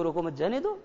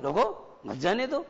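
First: "रोको मत जाने दो" run together, rising on दो; first intonation. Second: "रोको मत जाने दो" slower, रोको set apart, rising high on दो; changed intonation. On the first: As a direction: say "रोको मत जाने दो" as one phrase with a lifted ending. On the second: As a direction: split off रोको, then lift "मत जाने दो" slowly. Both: Shown as a demonstration. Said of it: "लहजा ही तो बदल रहा है".

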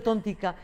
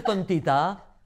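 First: "tontica" with the Aragonese -ica ending, a hard c before the final a; "tontica" the way they say it in Zaragoza, -ica not -ita. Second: "tontita" said with the standard -ita ending, t before the final a; "tontita" with the plain standard -ita, no regional ending; standard Spanish tontita. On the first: Correcting to the Zaragoza form, saying "tontica" with the -ica ending. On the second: Telling how women warned her on the street, saying "tontita" with the standard ending. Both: Shown as a demonstration. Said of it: "porque en Zaragoza es tontica".

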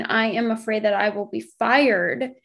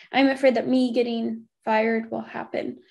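First: Emphasis landing on "fired" at the end; stress on fired. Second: Emphasis on "will happen" at the end; stress on will happen. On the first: Explaining the wording to followers, stress on "fired". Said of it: "you're putting the emphasis on getting fired". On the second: Showing how to reword the fear, stress on "will happen". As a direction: let "will happen" carry the sentence's end. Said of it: "putting the emphasis on the will happen at the end". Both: Shown as a demonstration.

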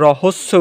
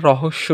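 First: রহস্য mispronounced with sharp s, not sh. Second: রহস্য with a doubled hushing sh, not s. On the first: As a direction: say রহস্য with a double s, "rohosso". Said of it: "উচ্চারণ করি না". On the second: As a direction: say রহস্য with sh, "rohossho". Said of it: "উচ্চারণ করি". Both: Shown as a demonstration.

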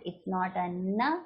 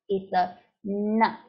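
First: "na" said plainly, without the retroflex tongue; the wrong, plain "na"; wrong na sound. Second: "na" said slowly and a bit louder, with the tongue curled back; the right, retroflex "na"; correct retroflex na. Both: Shown as a demonstration.

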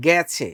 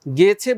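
First: গেছে with an open æ, like "gæchhe"; গেছে with the open vowel, drawn out slightly; spoken pronunciation. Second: গেছে with a pure e as written; গেছে read with the letter's e sound; spelling pronunciation. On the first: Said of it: "এটার উচ্চারণ কি". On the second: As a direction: say গেছে as spelt, e not æ. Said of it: "গেছে বলি না". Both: Shown as a demonstration.

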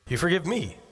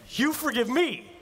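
First: Said in the usual way. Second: High, slowed mock disbelief; hammed-up stunned repeat; incredulous. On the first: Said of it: "they smile and say". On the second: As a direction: pastor echoing an apology answer, in mock disbelief.

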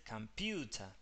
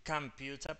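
First: "computer" stressed on a long PU; weak first syllable, lengthened U in "computer". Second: "computer" with stress moved to the first syllable COM; wrongly stressed schwa. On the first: Teacher shows the rule applied, "computer" stressed on PU. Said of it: "el sonido cae sobre el sonido de la U". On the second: Teacher shows what cannot be said, "computer" stressed on COM. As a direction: hit COM in "computer" instead of PU. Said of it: "Vos no puedes decir computer porque". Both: Shown as a demonstration.

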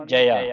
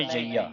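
First: The mistaken ਜਇਆ, middle vowel cut short; ਜਇਆ as "jaya", no long ee; short-vowel misreading. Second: ਜਈਆ with the middle vowel held as ee; correct pronunciation. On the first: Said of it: "ਜਇਆ ਨਹੀਂ ਪੜ੍ਹਨਾ ਆਪਾਂ". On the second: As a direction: say ਜਈਆ with a long ee, "ja-ee-ya". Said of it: "ਇਸ ਦਾ ਜਿਹੜਾ ਉਚਾਰਨ ਹੈ". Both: Shown as a demonstration.

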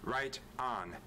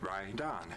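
First: "Right on" with the T sounded at the end of "Right"; T pronounced. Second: "right on" run together, the T dropped into the next word; linked casual speech. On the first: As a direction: say "Right on" word by word, keeping the T. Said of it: "we tend to pronounce the T". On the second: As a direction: blur "right on" into one slow linked word. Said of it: "if I say right on, it sounds like". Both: Shown as a demonstration.

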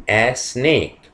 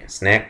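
First: "snake" said with a long ay vowel, sneik; correct pronunciation. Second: "Snack" said with a short flat a vowel; contrasting word. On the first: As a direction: stretch the vowel in "snake", not "snack". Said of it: "Not a snack". (نطق صحيح لكلمة "snake" بصوت "ei" طويل) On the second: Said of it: "it's another word". (نطق كلمة "Snack" بحرف a قصير) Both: Shown as a demonstration.

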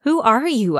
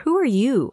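First: Puzzled, raised question; baffled. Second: Said in the usual way. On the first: Acted. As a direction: ask it startled and confused. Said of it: "I asked, baffled".

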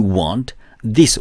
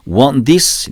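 First: "Want this" with an added 으 vowel after the t; extra vowel after want. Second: "want this" with the t nearly dropped; silent t in want. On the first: Teacher shows learners the mistake, "Want this" with a full teu. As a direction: say "Want this" as Korean-style wan-teu dis. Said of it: "가 아니라". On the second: Teacher shows learners the linking, "want this" with t barely sounded. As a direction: run "want this" together as wan-dis. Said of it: "이렇게 트 발음을 이제 뭐 거의 안 한다". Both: Shown as a demonstration.

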